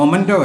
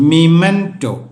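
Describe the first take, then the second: First: The word begins with a 'moh' sound. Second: The word begins with a 'mih' sound. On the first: The speaker calls it wrong. "ഇത് മൊമൻറ്റോ അല്ല" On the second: The speaker calls it right.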